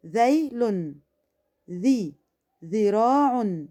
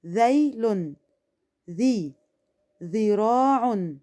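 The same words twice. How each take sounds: The two takes are said the same way.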